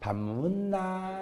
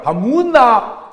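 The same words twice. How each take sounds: First: Soft, very slow coaxing with a laugh; sweet to bar girl. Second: Loud, slow gruff demand; gruff to wife. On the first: Same husband sweetly asking the bar woman, soft, slow and laughing. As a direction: coo it softly, all charm. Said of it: "술집 여자". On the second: Gyeongsang husband demanding rice from his wife, loud and slow. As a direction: bark it slowly at the wife. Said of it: "마누라". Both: Retold or imitated.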